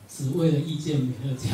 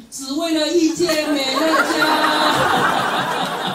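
First: Said in the usual way. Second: Very slow, high, loud shout with a laugh; loud proclamation. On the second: Pretend. Friend proclaims to the audience why he came, a loud slow shout. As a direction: stretch every word out and proclaim it. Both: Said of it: "他就很大声说".

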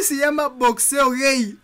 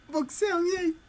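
First: Said in the usual way. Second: Giggling through the words, higher and slower; laughing. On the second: Real, not acted. Gamer repeating a silly title, laughing. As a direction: crack up while repeating the title.

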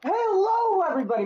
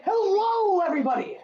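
First: Bright, high-pitched channel greeting; cheesy YouTube intro voice; youtuber intro. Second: High, bright enthusiastic greeting; over-the-top excited intro; with enthusiasm. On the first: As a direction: greet the viewers like a hyped streamer. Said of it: "How was that? Was that good for an intro?". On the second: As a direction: sell the hello to the fans. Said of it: "You gotta say it with some enthusiasm". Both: Shown as a demonstration.

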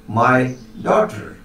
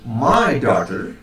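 First: "daughter" stressed, falling at the end; last-word stress on "daughter" with a falling tune. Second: Slow, with "My" stressed; first-word stress on "My", said slowly. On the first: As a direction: lean on "daughter" in "my daughter". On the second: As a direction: lean on "My" in "My daughter". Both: Shown as a demonstration. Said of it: "put the stress on the first or on the last".

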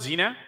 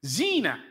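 First: "zina" with a short first vowel; mispronunciation of zina. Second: "zina" with a long first vowel; correct pronunciation of zina. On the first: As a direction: say "zina" quickly, no lengthened "zee". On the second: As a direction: draw out the "zee" in "zina". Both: Shown as a demonstration. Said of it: "not zina".

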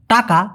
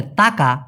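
First: "টাকা" with a hard retroflex first t; Bengali hard T. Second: "তাকা" with a soft dental first t; touch the teeth with the tongue to start "তাকা"; Malay soft T. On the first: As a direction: curl the tongue back to start "টাকা". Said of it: "যেমন আমরা যদি বলি টাকা". ("টাকা" শুরুতে শক্ত মূর্ধন্য ট উচ্চারণ) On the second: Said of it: "ওরা বলে তাকা". ("তাকা" শুরুতে নরম দন্ত্য ত উচ্চারণ) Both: Shown as a demonstration.

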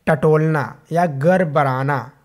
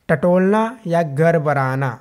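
No difference in how they are said.

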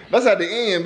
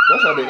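First: Said in the usual way. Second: Very high squeak on "That's"; squeaky high take. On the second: Shown as a demonstration. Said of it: "That's at the end, baby".

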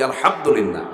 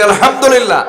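First: Said in the usual way. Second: Loud, high, ringing alhamdulillah. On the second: Shown as a demonstration. Preacher leads the audience, shouting alhamdulillah. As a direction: lift it up to the whole crowd. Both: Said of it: "জোরে বলি".

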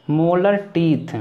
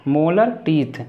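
The two takes are said the same way.

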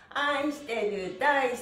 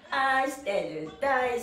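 The two takes are said the same way.

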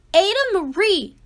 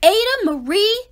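First: Quick louder repeat, falling; scolding, faster. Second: Louder, higher, rising call of her name; scolding call. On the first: Parents scolding their daughter, a fast falling call. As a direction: hurry the second call down. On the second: Parents scolding their daughter, a raised call. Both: Acted.

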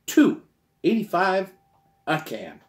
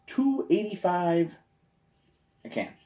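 First: Much higher and louder, "Two" punched hard; big excited "Two eighty-five a can"; emphatic repeat. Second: Slow, drawn-out price announcement; slow, deliberate "two eighty-five a can"; slow first take. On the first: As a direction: shout the price like it's unbelievable. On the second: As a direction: spell the price out slowly, a touch higher. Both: Shown as a demonstration. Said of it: "say it again".

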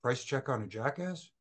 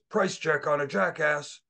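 First: Unsure, quieter, trailing into a question; mumbled, a bit embarrassed; sheepish repeat. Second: A light hint of a gruff Steve Austin growl. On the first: Retold or imitated. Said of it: "I said". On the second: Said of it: "tried to do my best Steve Austin voice".

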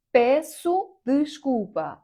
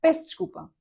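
First: Песу ди шкупа said slowly and louder, every letter sounded; every sound spelled out. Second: Пес чкупа, endings dropped, said high; natural clipped form. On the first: Teacher reading the phrase letter by letter, slowly. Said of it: "не будуть прям всі звуки вимовляти". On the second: Teacher modelling how Portuguese really shorten the phrase. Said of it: "а почуєте, скоріш за все". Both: Shown as a demonstration.

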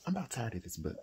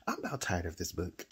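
First: Soft, breathy late-night aside; weary whisper. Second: Tired aside. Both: Real, not acted.

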